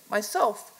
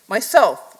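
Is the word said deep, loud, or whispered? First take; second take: deep; loud. First: It is said very deep and low. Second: It is said loud, clear and bright.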